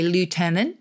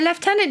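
First: The first syllable sounds like 'loo'. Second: The first syllable sounds like 'left'. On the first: This is the American way of saying it. "the Americans who say lieutenant" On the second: This is the British way of saying it. "we use the F"

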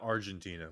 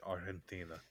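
First: It is pronounced the usual English way. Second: It is pronounced the local Spanish way. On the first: The speaker calls it wrong. "not Argentina" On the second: The speaker calls it right. "We have to say it the way they say it"

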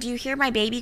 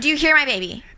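First: The question is asked in a calm, polite tone. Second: The question is asked in a sharp, sassy tone. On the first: "I'm pretty sure you didn't say it like that" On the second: "It had a tone"

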